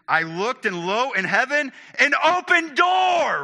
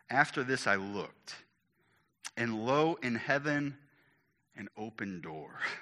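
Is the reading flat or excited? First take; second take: excited; flat. First: It is read in an excited, lively way. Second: It is read in a flat, plain way.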